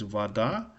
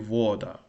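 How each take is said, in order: First: The stress is on the second syllable. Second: The stress is on the first syllable. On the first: The speaker calls it right. "the correct pronunciation of this word is, uh, I mean, I think it's correct, is vada" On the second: The speaker calls it wrong. "if you pronounce it, the, the stress wrong, it will be voda"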